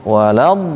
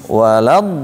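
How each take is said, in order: Both takes have the same delivery.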